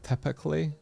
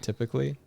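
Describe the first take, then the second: First: It is said with a stronger Scottish accent. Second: It is said in a more neutral accent.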